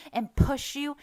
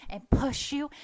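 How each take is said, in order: Both takes have the same delivery.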